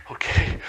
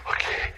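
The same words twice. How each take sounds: First: Said in the usual way. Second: Whispered okay to himself; nervous whisper. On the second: Retold or imitated. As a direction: breathe the word out, barely voiced. Nervous quarterback before the snap.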